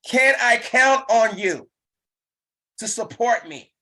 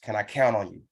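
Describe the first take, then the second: First: High, loud, slow plea; eager ask. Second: Said in the usual way. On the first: Shown as a demonstration. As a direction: lift the ask with bright hope. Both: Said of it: "demo of the ask".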